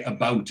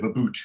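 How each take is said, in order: First: "about" with a standard "ow" in the second syllable; standard vowel. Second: "a boot" for about, with a long "oo"; Geordie slang form. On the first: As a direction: say "about" as well-spoken Geordies do, with "ow". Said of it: "they will say about instead of". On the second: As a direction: say "a boot" the broad Geordie way, rhyming with toot. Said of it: "instead of a boot". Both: Shown as a demonstration.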